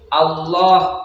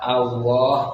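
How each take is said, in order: First: The middle consonant is a full heavy l sound. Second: The middle consonant sounds like a w sound. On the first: The speaker calls it right. "pakai lam jalalah harus dibaca dibaca pakai lam jalalah" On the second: The speaker calls it wrong. "bukan dibaca Allah pakai wawu"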